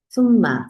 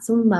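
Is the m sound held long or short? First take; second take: long; short. First: The nasal m sound is held long. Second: The nasal m sound is passed over quickly. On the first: The speaker calls it right. "쏨마 같은데 시간 많이 주셔야 됩니다" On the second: The speaker calls it wrong. "쏨마 하고 지나가시면 안 돼요"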